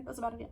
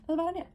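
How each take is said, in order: First: Said in the usual way. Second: Higher, louder comic echo; high squeaky repeat. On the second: Shown as a demonstration. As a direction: squeak the line again for emphasis.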